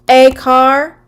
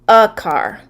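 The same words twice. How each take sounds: First: The article sounds like the letter name 'ay'. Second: The article is reduced to a short 'uh'. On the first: The speaker calls it wrong. "if we see the A, we would say" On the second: The speaker calls it right. "but it's actually pronounced a car"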